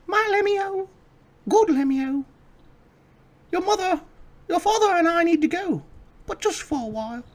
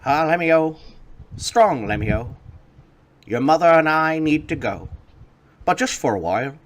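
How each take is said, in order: First: Very high falsetto mother. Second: A lightly voiced gnome father, higher; proud father bidding farewell. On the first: Acted. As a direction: coo it like a doting mother. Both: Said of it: "they both say".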